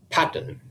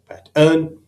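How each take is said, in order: First: The stress is on the first syllable. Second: The stress is on the second syllable. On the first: The speaker calls it right. "with the first syllable emphasized" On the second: The speaker calls it wrong. "with the emphasis on the second syllable"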